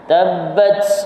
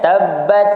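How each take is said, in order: First: The final t ends in a very strong burst. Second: The final t is held with no release. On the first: "Itu kuat sangat. Kuat sangat. Itu melampaui dah" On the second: "Kalau kita tetap ataupun kita lekatkan tabbat, dia tak ada hamas"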